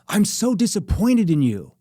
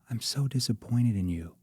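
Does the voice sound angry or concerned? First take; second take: angry; concerned. First: It is said in an angry, accusing tone. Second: It is said in a soft, concerned tone. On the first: The speaker is upset and blaming the listener. The speaker calls it wrong. "you're mad at your girlfriend" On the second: The speaker is disappointed but still cares. The speaker calls it right. "shifting my voice into a concern tone"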